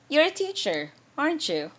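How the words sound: The pitch falls at the end. The speaker is just confirming something. "falling intonation, like your voice goes down at the end"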